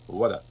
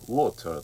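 First: The middle consonant is a d sound. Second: The middle consonant is a clear t sound. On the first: "アメリカ英語になるとこうほとんどt の音がd に変化しています" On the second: "water とこういうふうに聞き取れます"

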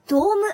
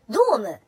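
First: The pitch stays high after the first syllable. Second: The pitch drops after the first syllable. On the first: This is how devoted idol fans say it. "ドームっていうのね" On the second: This is the standard way to say it. "ドームじゃなくて"

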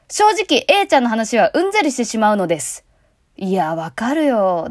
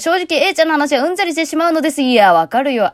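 First: The delivery sounds heavy and weighty. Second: The delivery sounds light and breezy. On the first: The speaker calls it wrong. "だと重くなるじゃん。" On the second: The speaker calls it right. "ここはさらっといきたいために"

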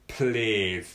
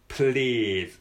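No difference in how they are said.

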